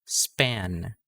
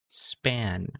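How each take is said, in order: The two takes are said the same way.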